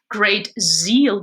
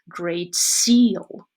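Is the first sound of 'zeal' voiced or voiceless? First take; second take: voiced; voiceless. First: The first sound of zeal is voiced. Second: The first sound of zeal is voiceless.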